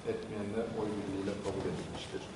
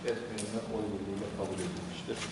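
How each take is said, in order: No difference in how they are said.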